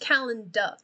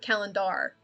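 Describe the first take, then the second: First: The final R is dropped. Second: The final R is pronounced. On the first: The speaker calls it right. "it's just calendar" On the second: The speaker calls it wrong. "You don't put calendar. You don't say it like that"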